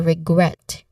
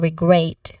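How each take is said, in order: First: The second vowel is a short vowel. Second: The second vowel is a long diphthong. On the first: The speaker calls it right. "Instead we say regret. Short A vowel sound" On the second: The speaker calls it wrong. "So we do not say regret"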